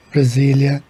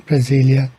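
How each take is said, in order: Both takes have the same delivery.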